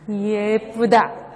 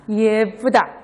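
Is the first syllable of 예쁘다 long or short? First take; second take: long; long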